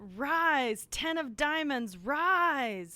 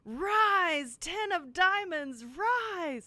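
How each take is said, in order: First: It is said with less enthusiasm. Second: It is said with more enthusiasm.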